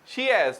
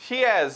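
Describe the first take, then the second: No difference in how they are said.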